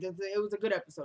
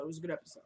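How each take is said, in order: First: Said in the usual way. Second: Softer repeat said to herself; quiet echo. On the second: Real, not acted. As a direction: murmur it again under your breath.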